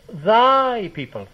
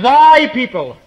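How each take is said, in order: First: "Thy" slow and drawn out, not shouted; turned emphasis on Thy. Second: "Thy" high and loud, pushed at the listener; God's thundering emphasis. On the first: Moses handing the people back to God, pointed stress on "Thy". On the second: God disowning the people to Moses, loud stress on "Thy". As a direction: hurl "Thy" out as a loud accusation. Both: Acted. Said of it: "with a change of emphasis".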